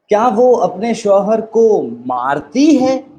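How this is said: The stress falls on the word मारती. "अब emphasis कहाँ आ गया? मारती है।"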